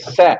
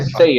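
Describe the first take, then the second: First: The vowel is a short pure 'eh'. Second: The vowel glides like English 'say'. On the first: It is read as a French name. The speaker calls it right. "é sé ... se trata de um economista francês" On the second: It is read like the English verb. The speaker calls it wrong. "igual ao verbo say, do verbo dizer em inglês, mas não é say"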